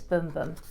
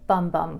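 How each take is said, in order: First: The vowel is long, as in 'boom'. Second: The vowel is short, as in 'bum'. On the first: The speaker calls it right. "but I'm told it's Boom Boom" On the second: The speaker calls it wrong. "I would have pronounced it Bum Bum Cream"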